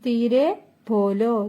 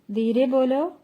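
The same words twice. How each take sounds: First: Slow, careful model of ധീരെ ബോലോ; slow teaching model. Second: Said in the usual way. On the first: Shown as a demonstration. Teacher modelling Hindi phrase for Malayalam learners, slowly. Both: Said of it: "പതുക്കെ സംസാരിക്കൂ".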